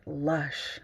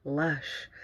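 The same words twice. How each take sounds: First: "Lush" low and soft, savoured; a soft, relishing "Lush"; savoured word. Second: "Lush" lower and softer, lingering; a quiet, relishing "Lush"; savoured word. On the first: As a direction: roll "Lush" out slowly like something delicious. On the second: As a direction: breathe "Lush" out with pleasure. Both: Shown as a demonstration. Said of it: "You gotta say it like that".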